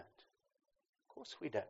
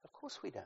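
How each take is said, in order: First: Softer, slow gentle echo; soft slow repeat. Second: Said in the usual way. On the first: Real, not acted. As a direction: let it fall away tenderly.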